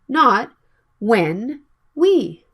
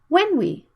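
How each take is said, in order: First: When we is full and clearly pronounced. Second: When we is quick and reduced. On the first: The speaker calls it wrong. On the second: The speaker calls it right. "It's not easy to hear the sound of when we, because they are not important"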